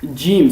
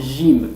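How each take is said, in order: First: It begins with a j sound as in joke. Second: It begins with a soft French j sound. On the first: This is the standard literary pronunciation. The speaker calls it right. "il faut le prononcer comme jim" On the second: This is a dialect pronunciation. The speaker calls it wrong. "ils le prononcent comme jim, comme le français"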